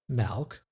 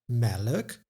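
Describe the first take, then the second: First: No extra vowel splits the final consonants. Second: An extra uh vowel splits the final consonants. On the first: "instead of" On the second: "this extra uh sound"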